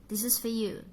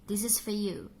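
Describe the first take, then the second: No difference in how they are said.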